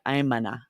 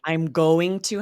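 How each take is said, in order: First: The words are reduced and linked into gonna. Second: The words are said fully as going to. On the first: "we drop the "g" and go straight from we're linking here" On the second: "We're really saying"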